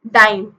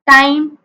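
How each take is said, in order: First: डाइम said with a voiced D, a little lower; minimal pair dime. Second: टाइम said with a crisp T, clear and slightly louder; minimal pair time. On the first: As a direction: say डाइम starting with a voiced retroflex D. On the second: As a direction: say टाइम starting with a sharp unvoiced T sound. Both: Shown as a demonstration. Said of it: "आप खुद बोल के देख लो".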